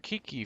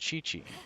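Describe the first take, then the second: First: The name begins with a hard k sound. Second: The name begins with a ch sound. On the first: "I pronounced it for Kiki for the longest time" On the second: "but apparently it's Chi-Chi"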